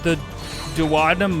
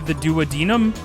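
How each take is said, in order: First: It is said to rhyme with platinum. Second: It is said not rhyming with platinum. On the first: The speaker calls it wrong. "the way that I learned to pronounce Dowadnum is maybe from Friends" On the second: The speaker calls it right. "might be the duodenum"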